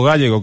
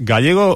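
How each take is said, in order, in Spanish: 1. El acento cae en la primera sílaba. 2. El acento cae en la segunda sílaba. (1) "o Gallego, como el río" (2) "¿Es Gallego"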